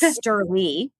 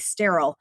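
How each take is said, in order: First: The name ends in an 'ee' sound. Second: The name ends in an 'ill' sound. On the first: The speaker calls it right. "it's Sturley" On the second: The speaker calls it wrong. "it's not weird that people would say sterile"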